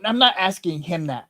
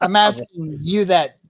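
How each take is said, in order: First: "him" picked out to contrast with someone else; stress on him. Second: "you" punched louder as the one meant; stress on you. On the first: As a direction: lean on "him" to rule him out. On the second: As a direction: hit "you" firmly to single out the listener. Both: Real, not acted. Clarifying whom the question is for.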